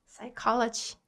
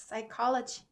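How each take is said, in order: The two takes are said the same way.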